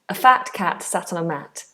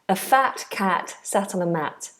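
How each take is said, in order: First: The first 'a' is a short weak vowel. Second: The same.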